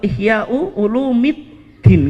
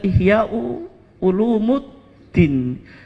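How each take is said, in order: First: The second word ends with an 'i' before '-ddin'. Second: The second word ends with an 'u' before '-ddin'. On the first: The speaker calls it right. "Yang betul apa?" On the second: The speaker calls it wrong. "karena sudah menjadi common mistake, kesalahan bacaan"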